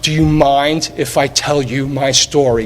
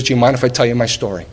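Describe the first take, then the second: First: Slowed right down, each word savoured; "Do you mind if I tell you my story?" said slowly, with feeling; slow, moved retelling. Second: Said in the usual way. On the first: Retold or imitated. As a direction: relive the moment, slow and touched. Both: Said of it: "I still get goosebumps".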